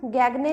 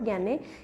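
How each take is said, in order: First: A g sound is heard mid-word. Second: No g sound is heard mid-word. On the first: The speaker calls it wrong. "लिखा हुआ है" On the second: The speaker calls it right. "लेकिन क्या है"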